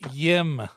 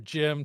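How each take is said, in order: First: The name begins with a Y sound. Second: The name begins with a J sound.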